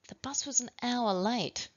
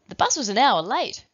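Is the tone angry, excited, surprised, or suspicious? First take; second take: suspicious; excited. First: The sentence is said in a suspicious tone. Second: The sentence is said in an excited tone.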